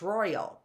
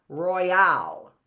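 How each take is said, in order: First: "royal" stressed on ROY, light ending; first-syllable stress. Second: "royale" stressed on the final AL; second-syllable stress. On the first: Teacher giving the right reading, "royal" with front stress. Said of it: "is the stress on the roy". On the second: Teacher testing a wrong reading, "royale" with end stress. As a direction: lean hard on the end of "royale". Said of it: "is the stress on the al". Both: Shown as a demonstration.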